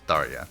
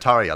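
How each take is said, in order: First: The name begins with a th sound. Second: The name begins with a plain t sound. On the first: The speaker calls it right. "I'm pretty sure in the game she's pronounced Tharia" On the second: The speaker calls it wrong. "I was calling her Taria last time, and I think that's more of a, a Finnish pronunciation"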